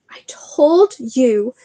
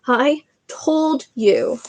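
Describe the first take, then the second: First: Breathless, slow whisper; gasped whisper. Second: Slow, drawn-out repeat, a bit higher; slow breathless repeat. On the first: Hermione gasping after the run, breathless whisper. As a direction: gasp it out with no breath left. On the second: Hermione repeating herself to Harry, slow and spent. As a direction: lean on told, slow and spent. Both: Acted. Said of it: "Hermione gasped".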